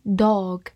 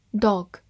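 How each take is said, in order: First: "dog" with a drawn-out vowel; long vowel. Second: Said in the usual way. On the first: Shown as a demonstration. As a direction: lengthen the "o" in "dog". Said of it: "或者长音dog". (用长音读 dog)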